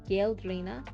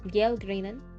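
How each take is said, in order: First: The name ends in an open 'a' vowel. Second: The name ends in an 'n' sound. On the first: The speaker calls it wrong. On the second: The speaker calls it right. "I think it's N"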